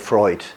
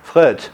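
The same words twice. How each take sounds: First: The name is said with a German 'oy' vowel. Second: The name is said with a French vowel. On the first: This is how English speakers name the psychoanalyst. "we use the German" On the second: This is how French speakers name the psychoanalyst. "in French we often like to make the pronunciation French"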